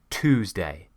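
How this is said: It is said in an American accent. "if you want to sound more American"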